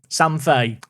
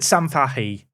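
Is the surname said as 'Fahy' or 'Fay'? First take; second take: Fay; Fahy. First: The surname is said as 'Fay'. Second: The surname is said as 'Fahy'. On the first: "He says he wants it said Fay" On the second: "I think it said Sam Fahy"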